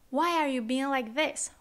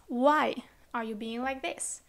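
First: Said in the usual way. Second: Slow, "Why" set apart by a pause; teacher isolating "Why" at a slow pace; stress on WHY. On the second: Shown as a demonstration. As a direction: stretch "Why", pause, then the rest. Repeats translation to isolate why.

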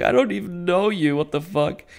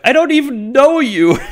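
First: High-pitched bewilderment without shouting; imitating a baffled victim, pitched up; mock surprise. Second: Very high, loud bewildered shout; laughing, over-the-top cry of surprise; mock shocked yell. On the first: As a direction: squeak it out in disbelief, easing down at the end. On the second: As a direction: yell it in hammed-up disbelief. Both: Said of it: "he's really surprised what's happening".

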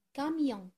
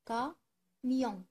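First: Said in the usual way. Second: "camion" in two beats, ca, mion; split into syllables. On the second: Shown as a demonstration. Teacher helping pupils find a sound, "camion" syllable by syllable. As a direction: leave a clear pause inside "camion" after ca. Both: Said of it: "Je cherche où se trouve le son".

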